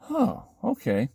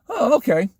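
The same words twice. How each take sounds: First: Slow, drawn-out, higher reply; hesitant acceptance. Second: High, quicker reply; mock-surprised acceptance. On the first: Retold or imitated. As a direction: stretch it out, taking it in. Retold first reply at the car. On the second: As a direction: pop it up high in mild surprise. Retold same reply at the door.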